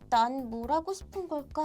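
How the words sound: It is said in a quiet, serious, thoughtful tone. The speaker is seriously pondering the question. "보통이라면"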